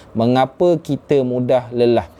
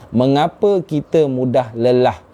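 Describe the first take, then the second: The two takes are said the same way.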